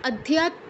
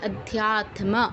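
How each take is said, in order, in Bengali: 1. "t" ও "m" যুক্তাক্ষরটি পুরোপুরি উচ্চারিত হয়নি। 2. "t" ও "m" দুটো ধ্বনিই উচ্চারিত হয়েছে। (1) "অধ্যাত্ম কেউ বলবো না" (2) "তম দুটোরই উচ্চারণ করতে হবে"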